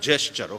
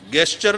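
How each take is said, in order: First: The word begins with a 'j' sound. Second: The word begins with a hard 'g' sound. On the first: The speaker calls it right. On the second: The speaker calls it wrong.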